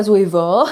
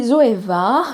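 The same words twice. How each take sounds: First: Zoeva with a ch'ti "o" ending; playful ch'ti accent on Zoeva. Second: Said in the usual way. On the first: Shown as a demonstration. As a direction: say Zoeva the ch'ti way, final a rounded to "o". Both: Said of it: "avec l'accent ch'ti".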